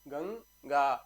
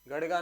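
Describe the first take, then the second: First: The middle sound is a nasal 'ng'. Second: The middle sound is a 'd' flap. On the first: The speaker calls it right. "आधा शब्द" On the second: The speaker calls it wrong. "गड़गा नहीं"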